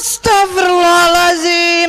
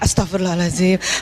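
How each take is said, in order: First: It is said in a harsh, unpleasant way. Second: It is said in a soft, pleasant way.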